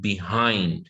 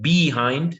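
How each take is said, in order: First: The stress is on the second syllable. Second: The stress is on the first syllable. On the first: The speaker calls it right. "you would say behind" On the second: The speaker calls it wrong. "instead of saying behind"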